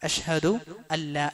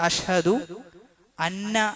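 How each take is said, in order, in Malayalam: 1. n ഇരട്ട l-ലേക്ക് ലയിക്കുന്നു. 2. n ശബ്ദം വ്യക്തമായി ഉച്ചരിക്കപ്പെടുന്നു. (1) "അവിടെ നൂന് എഴുതുമെങ്കിലും ഉച്ചാരണത്തിൽ അത് വരികയില്ല" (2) "ചില ആളുകൾ ബാങ്ക് വിളിക്കുന്ന സന്ദർഭത്തിലൊക്കെ അഷ്ഹദു അന്ന എന്ന് പറയാറുണ്ട്. അത് ശരിയല്ല"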